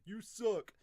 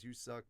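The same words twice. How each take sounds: First: Loud, higher mocking heckle; mock jeer. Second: Said in the usual way. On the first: Any fool commenter insulting the dub, mock jeer.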